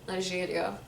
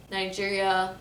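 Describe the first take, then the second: First: Nigeria with a soft "zh"; Lebanese pronunciation. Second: Nigeria with hard English J; American pronunciation. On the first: Showing the Lebanese name, "zh" in Nigeria. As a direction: softly say Nigeria with French-style G. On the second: Announcing it to viewers, English J in Nigeria. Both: Shown as a demonstration. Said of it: "say states and countries".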